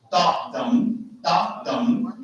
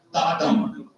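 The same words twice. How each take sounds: First: DA DUM with weighted DA, lighter DUM; trochee stress pattern. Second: DA DUM with light DA, weighted DUM; iamb stress pattern. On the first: Teacher sounding out a trochee, stress on DA. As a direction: lean on DA in each DA DUM. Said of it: "is a stressed and unstressed". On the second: Teacher sounding out an iamb, stress on DUM. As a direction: lean on DUM in DA DUM. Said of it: "Da is unstressed and dum is a stress". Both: Shown as a demonstration.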